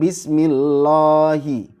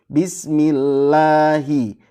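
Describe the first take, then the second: First: The vowel after the l sounds like o. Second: The vowel after the l is a pure a. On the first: The speaker calls it wrong. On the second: The speaker calls it right. "fathahnya harus benar-benar A"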